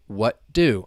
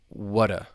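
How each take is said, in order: First: The T is held before a released D. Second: The T is dropped and the D is weak. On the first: "you have that stop T" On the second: "when you say this quickly ... that T then goes away, like it elides"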